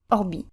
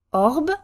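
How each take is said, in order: First: "orbi" with a short, light first syllable, stress on the final i; short unstressed R. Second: "Orb" as one long stressed syllable with French R. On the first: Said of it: "first syllable in our new position is shorter". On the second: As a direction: lean on the R in "Orb". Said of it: "one where the R is stressed". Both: Shown as a demonstration.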